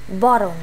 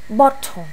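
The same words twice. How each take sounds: First: The middle t sounds like a soft d. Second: The middle t is a clear t sound. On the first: This is the American way of saying it. "chữ t biến thành d" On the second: This is the British way of saying it. "mình học giáo trình Anh nên là mình cứ t ha"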